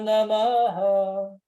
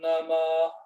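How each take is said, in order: First: The final h is followed by an echoing vowel. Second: The final h is silent, with no echo vowel. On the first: "Aqui ele ecoa" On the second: "aqui ficou meio mudo"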